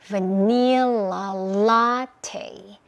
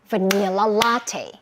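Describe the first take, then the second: First: It is said slowly. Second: It is said fast.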